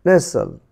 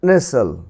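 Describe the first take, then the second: No difference in how they are said.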